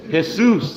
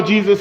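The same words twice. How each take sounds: First: Jesus said as Spanish hay-SOOS with an H sound. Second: Said in the usual way. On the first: Shown as a demonstration. Spanish speakers' Jesus, Jesus as hay-SOOS. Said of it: "How do you say Jesus in Spanish?". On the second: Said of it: "if you call Jesus Jesus in Spanish".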